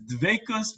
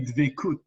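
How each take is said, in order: First: The word ends with an s sound. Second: The word ends with a t sound. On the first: "in my yeshiva background... we said the t as a sa. So the way we pronounce it is dvekus" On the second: "if you speak more with the Israeli pronunciation, you would say dvekut"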